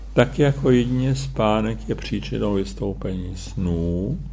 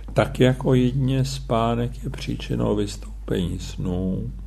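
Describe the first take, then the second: Both takes have the same delivery.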